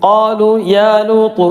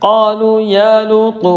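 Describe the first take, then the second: Both takes have the same delivery.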